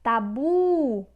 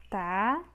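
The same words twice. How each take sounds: First: "Tabu" with a loud, long BU; stretched stressed syllable. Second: "Tabu" split into TA, pause, BU; syllable by syllable. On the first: Teacher showing the tonic syllable, loud stretched stress. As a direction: push and stretch the final BU in "Tabu". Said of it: "sílaba tônica é a sílaba bu". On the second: Teacher separating the word for students, syllable by syllable. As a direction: hold TA, pause, then say BU. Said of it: "Separamos dessa forma". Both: Shown as a demonstration.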